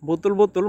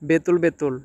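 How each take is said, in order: First: The first vowel of each word sounds like 'u'. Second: The first vowel of each word sounds like 'e'. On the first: The speaker calls it wrong. "অনেকে আবার এটাকে বুতুল বুতুল বলে" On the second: The speaker calls it right. "শুদ্ধ উচ্চারণ হচ্ছে বেতুল বেতুল"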